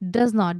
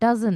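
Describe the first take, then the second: First: Both words are said in full. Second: The words are run together into one.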